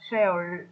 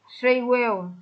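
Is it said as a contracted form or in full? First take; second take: contracted; full. First: One contracted syllable, will reduced to l. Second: Two full words, will clearly pronounced.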